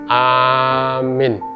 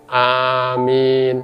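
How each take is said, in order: First: The first vowel is long, the second short. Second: Both the first and second vowels are long. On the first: It means the one who gives safety. "A-nya panjang, ya, min-nya pendek" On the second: It means O God, grant it. "yang pertama panjang, yang kedua panjang juga"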